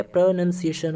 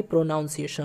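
First: प्रोनाउंसिएशन said as pro-nun-see-ay-shun, with nun; correct pronunciation. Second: प्रोनाउंसिएशन said as pro-noun-see-ay-shun, with noun; wrong pronunciation. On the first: Teacher giving students the right way to say it. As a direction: say प्रोनाउंसिएशन with nun, not noun. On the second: Teacher showing students the wrong way to say it. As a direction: say प्रोनाउंसिएशन with noun, the common mistake. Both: Shown as a demonstration. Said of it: "ना कि".

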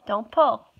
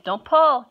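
First: Said in the usual way. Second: Sharp, louder no-pull; firm warning. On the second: Real, not acted. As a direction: stop her firmly. Stopping baby pulling fur.

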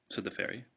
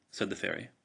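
No difference in how they are said.

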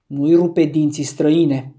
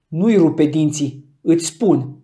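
First: Louder warning, Nu-i rupe dinții said as a threat; first menacing warning, louder on rupe. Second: Slow, louder Nu-i rupe dinții with heavy stress on nui; more menacing. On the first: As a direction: warn him off with a threat. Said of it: "pe un ton amenințător". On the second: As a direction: spell the threat out slowly. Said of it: "pe un ton mai amenințător decât înainte". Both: A narrator's reading.

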